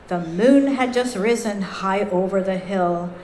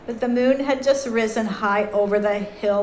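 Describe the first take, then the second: First: It is read in a lively, expressive way. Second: It is read in a flat, dull way.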